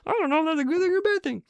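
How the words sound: It is said in a Kermit the Frog voice.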